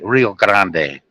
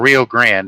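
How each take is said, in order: First: The final e of Grande is pronounced. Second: The final e of Grande is silent. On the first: This is the original pronunciation. The speaker calls it right. "it's actually Rio Grande because it, it ends in an E" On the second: This is how Americans say it. The speaker calls it wrong. "as the Americans say"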